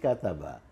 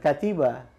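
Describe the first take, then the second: First: The middle vowel is a. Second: The middle vowel is i. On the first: The speaker calls it right. "tapi kataba" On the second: The speaker calls it wrong. "bukan katiba"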